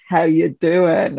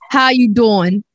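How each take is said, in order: First: Attempted American accent in a slow pickup line; slow, halting try at Joey's American accent. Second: Drawn-out American sitcom pickup accent; Joey. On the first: British host trying a sitcom flirt, American accent attempt. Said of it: "Joey from Friends". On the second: Shown as a demonstration. Co-host demonstrating the catchphrase, American sitcom flirt accent. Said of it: "You have to do it for me".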